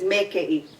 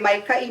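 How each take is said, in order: First: The first syllable is a plain 'e' vowel. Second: The first syllable is a full 'ai' diphthong. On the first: This is how the elders say it. "my dad says mekei" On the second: This is not how the elders say it. "My dad does not say maikai"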